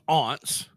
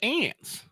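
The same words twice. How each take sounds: First: It uses a pronunciation foreign to Texas. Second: It uses the Texan pronunciation.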